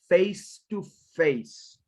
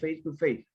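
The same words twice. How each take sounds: First: The final sounds are pronounced clearly. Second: The final sounds are barely pronounced. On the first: The speaker calls it right. "careful with the final sounds" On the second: The speaker calls it wrong. "You sound like face to face. The it's not really noticeable"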